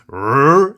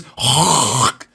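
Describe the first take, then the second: First: "rrr" as a plain held English R, low and loud; "rrr" said the British way, exaggerated and drawn out. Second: "rrrr" as a harsh throaty rasp from the back of the mouth; "rrrr" said the French way, exaggerated and guttural. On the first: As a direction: hold "rrr" as a smooth growled R, no throat rasp. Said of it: "We say it as". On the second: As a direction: scrape "rrrr" in the throat like hawking. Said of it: "the French pronounce it as". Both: Shown as a demonstration.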